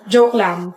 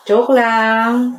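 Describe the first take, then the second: First: Said in the usual way. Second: "Joke lang" stretched long on "lang"; drawn-out "Joke lang". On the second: Acted. Friend takes back a tease, "Joke lang" drawn out.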